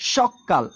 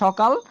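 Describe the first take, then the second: First: The middle k sound is doubled and held longer. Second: The middle k sound is short and single. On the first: Very early morning, with emphasis. "আর এখানে হয়ে গেল সকাল" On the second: Morning, said plainly. "তার মানে সকাল"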